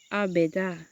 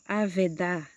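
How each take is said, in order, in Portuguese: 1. A consoante do meio é som de B. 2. A consoante do meio é som de V.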